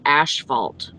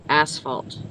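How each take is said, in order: First: The first syllable is said with an sh sound. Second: The first syllable is said with a plain s sound. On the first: The speaker calls it wrong. "My husband calls it asphalt. Like ash" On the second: The speaker calls it right. "that's how I say it too"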